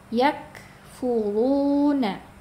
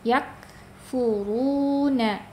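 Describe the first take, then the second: No difference in how they are said.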